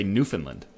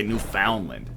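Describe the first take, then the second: First: "Newfoundland" as NEW-fun-lund, middle reduced; local pronunciation. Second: "Newfoundland" as new-FOUND-land, full "found"; rejected pronunciation. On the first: Showing how locals say "Newfoundland": NEW-fun-lund. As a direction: say "Newfoundland" with a quick, unstressed "fun". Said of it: "We say Newfoundland". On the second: Showing what locals don't say: "Newfoundland" with stressed FOUND. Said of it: "We don't say Newfoundland". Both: Shown as a demonstration.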